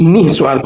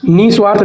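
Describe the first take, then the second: First: निस्वार्थ with a breathed h after 'ni'; correct pronunciation. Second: निस्वार्थ with no breath after 'ni'; wrong pronunciation. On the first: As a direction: say निस्वार्थ as nih-swaarth. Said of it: "निस्वार्थ होता है". (निस्वार्थ में 'निः' विसर्ग के साथ) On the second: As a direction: run ni straight into swaarth in निस्वार्थ. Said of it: "निस्वार्थ नहीं". (निस्वार्थ में 'नि' बिना विसर्ग के) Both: Shown as a demonstration.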